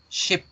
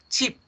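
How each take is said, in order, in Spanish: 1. La vocal es una i inglesa, corta y relajada. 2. La vocal es una i española, tensa y con sonrisa. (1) "como se debe pronunciar en inglés" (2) "pronunciándolo tal cual lo pronunciaríamos en español"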